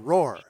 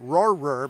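First: The name is said with one syllable. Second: The name is said with two syllables. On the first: The speaker calls it right. "but Roar" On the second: The speaker calls it wrong. "not Roarer"

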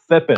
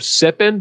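First: The first sound is a lisped th. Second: The first sound is a clear s.

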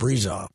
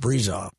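First: The middle consonant is a buzzing Z sound. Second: The same.

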